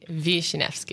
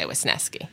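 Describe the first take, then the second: First: The name is said with Polish pronunciation. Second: The name is said the family's own way. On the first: This is the original form of the name. "it's really Wisniewski because it's Polish" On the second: This is how the name's bearers say it. "but we say Wisniewski"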